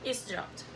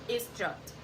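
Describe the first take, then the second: No difference in how they are said.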